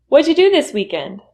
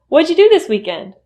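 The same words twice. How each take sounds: Both takes have the same delivery.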